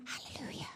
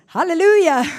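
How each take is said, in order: First: "Hallelujah" breathed out with no voice at all; voiceless whisper. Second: "Hallelujah" called out full and much louder; translator's loud echo. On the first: Preacher with a lost voice at the microphone, voiceless whisper. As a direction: try to praise but only air comes out. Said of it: "I went". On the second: Translator echoing the voiceless preacher, loud proclamation. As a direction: boom it back like the eager translator. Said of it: "and then she's translating". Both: Retold or imitated.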